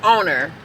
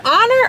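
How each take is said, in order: First: Honor said like the word owner; alternative pronunciation. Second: Honor said like the verb honor; pronounced like honor. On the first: Questioning the brand name, Honor said as "OH-ner". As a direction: say Honor with a long "oh" first vowel. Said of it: "Is it Honor or Honor?". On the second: Checking the brand name, Honor said as "ON-er". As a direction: say Honor with an open "ah" first vowel. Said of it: "I think it's Honor, like, I honor you". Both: Shown as a demonstration.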